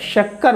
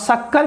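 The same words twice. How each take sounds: First: The first sound is a palatal sh. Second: The first sound is a plain hissing s. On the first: The speaker calls it right. "शक्कर बोलेंगे" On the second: The speaker calls it wrong. "गलत हो जाएगा"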